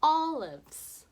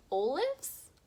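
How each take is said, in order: First: "Olives." with short o, ɔ, loud and sure; "Olives." louder with short o, confident; correct short O. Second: "Olives?" with long o, oʊ, doubtful rise; wrong long O. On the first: Teacher shows kids the right vowel, pleased. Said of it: "That sounds right". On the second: Teacher shows kids the wrong vowel, doubtful. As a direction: try "Olives?" with long o and sound unsure. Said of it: "that doesn't sound right". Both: Shown as a demonstration.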